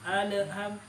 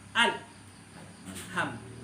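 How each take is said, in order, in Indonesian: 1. L dipantulkan dengan tambahan vokal. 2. L ditahan tanpa tambahan vokal. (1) "di sini tidak boleh dipantulkan ... tidak boleh dibaca ala" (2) "ditahan ... yang betul adalah al ham"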